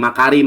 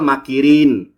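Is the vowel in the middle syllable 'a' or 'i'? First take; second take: a; i. First: The middle syllable has the vowel a. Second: The middle syllable has the vowel i. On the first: The speaker calls it wrong. "bacanya makarin" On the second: The speaker calls it right. "padahal makirin"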